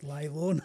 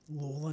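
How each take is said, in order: First: The name is said as 'Lay-law', starting with 'lay'. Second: The name is said as 'Lawler', starting with 'law'. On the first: The speaker calls it wrong. "not Laylaw, not like the suburb" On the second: The speaker calls it right. "that is how you pronounce the name"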